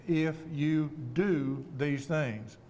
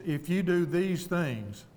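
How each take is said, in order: First: "do" drawn out in a very slow phrase; stress on do. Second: Said in the usual way. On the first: Shown as a demonstration. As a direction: lean hard on the word "do", spacing each word slowly. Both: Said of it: "I will emphasize the word do".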